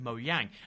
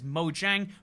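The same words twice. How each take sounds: First: The name is pronounced with a Swedish accent. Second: The name is pronounced with an English accent.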